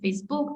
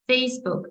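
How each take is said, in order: First: The stress is on the second syllable. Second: The stress is on the first syllable. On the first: The speaker calls it wrong. "не Facebook" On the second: The speaker calls it right. "ми вимовляємо назву соцмереж, наголошуючи перший склад"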